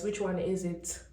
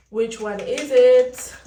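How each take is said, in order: First: Said in the usual way. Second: Slow and louder, pressing the question. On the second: Real, not acted. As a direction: demand an answer: "Which one is it?" loud and slow.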